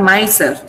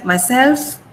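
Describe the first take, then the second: First: Myself with MY stressed and SELF dropped; wrong stress on MY. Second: Myself rising onto a stressed SELF. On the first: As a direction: hit MY in "myself", let SELF fall. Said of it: "It's not myself". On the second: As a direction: push SELF in "myself", MY stays light. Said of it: "I'm stressing self". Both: Shown as a demonstration.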